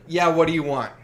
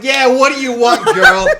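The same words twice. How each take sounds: First: Louder, mildly impatient demand; mock-brusque counter greeting; brusque attitude. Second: Loud, high, hammed-up Jersey bark; mock Jersey attitude. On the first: Sandwich maker to a late customer, mildly brusque. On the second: Sandwich maker to a customer near closing, loud Jersey attitude. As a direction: demand the order like a brash mock Jersey guy. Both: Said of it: "I was probably talking Jersey".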